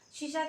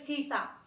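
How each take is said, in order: First: Both consonants are pronounced with an sh sound. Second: Both consonants are pronounced with an s sound. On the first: The speaker calls it right. "शीशा कहा जाता है" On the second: The speaker calls it wrong. "शीशा को क्या सीसा ऐसे बोल देंगे"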